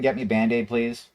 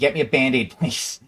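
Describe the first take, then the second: First: The voice is calm and even. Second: The voice is tense and frustrated. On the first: "Like just calm as day" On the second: "I kind of got frustrated"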